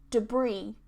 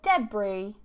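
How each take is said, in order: First: The stress is on the second syllable. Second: The stress is on the first syllable. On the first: "one is just stressed on the second syllable" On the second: "one is just stressed at the start"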